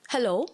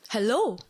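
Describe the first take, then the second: First: Raised, questioning "Hello?" called out louder with a rising tune; calling out. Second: Louder "Hello?" called with a falling tune; calling out. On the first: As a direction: call "Hello?" up into the chute, voice going up at the end. Calling into trash chute. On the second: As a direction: call "Hello?" again, louder, and let it drop at the end. Calling into trash chute again. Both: Retold or imitated.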